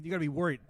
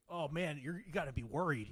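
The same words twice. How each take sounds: First: Said in the usual way. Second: Quieter, mocking "You gotta be worried." as an imagined critic; mock worried quote. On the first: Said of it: "You know what I mean?". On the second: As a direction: scoff out "gotta be worried" like a fake warning. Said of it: "it's like".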